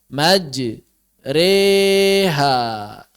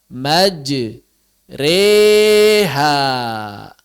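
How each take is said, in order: Both takes have the same delivery.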